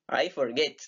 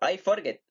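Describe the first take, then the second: First: The stress is on the second syllable. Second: The stress is on the first syllable. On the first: The speaker calls it right. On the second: The speaker calls it wrong. "yo no digo"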